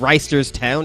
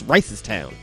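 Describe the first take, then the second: First: The name is said with every written syllable. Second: The name is shortened, dropping the middle syllable. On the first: The speaker calls it wrong. "It's not Reisterstown" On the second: The speaker calls it right. "it's Ricestown"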